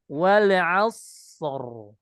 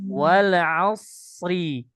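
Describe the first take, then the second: First: The word ends on the consonant r. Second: The final r is followed by a short i.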